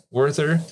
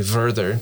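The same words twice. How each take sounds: First: Said in the usual way. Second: "Werther" said as "Verther"; Germanified "Werther", V in place of W; German W as V. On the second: Shown as a demonstration. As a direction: start Werther with a V sound. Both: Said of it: "they don't pronounce the W".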